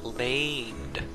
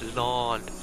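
First: The vowel is a long A sound. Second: The vowel is not a long A sound. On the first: The speaker calls it wrong. "A long A would be like land" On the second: The speaker calls it right. "It's not a long A. No, it's land"

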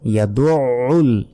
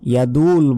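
First: A pressed throat consonant comes before the final vowel. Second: A plain vowel comes with no throat consonant. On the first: The speaker calls it right. "ইয়াদুল বলা যাবে না" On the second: The speaker calls it wrong. "ইয়াদুল বললে এখানে আইনের উচ্চারণ কিন্তু আমরা করলাম না"

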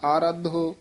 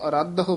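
First: The first vowel is long. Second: The first vowel is short. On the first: The speaker calls it wrong. "ਕੰਨਾ ਲਾ ਕੇ ਨਹੀਂ ਬੋਲਣਾ" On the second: The speaker calls it right. "ਇਸ ਨੂੰ ਅਰਧ ਹੋ ਬੋਲਣਾ"

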